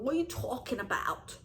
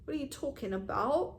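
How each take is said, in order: First: It is said in a New Jersey accent. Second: It is said in a Canadian accent.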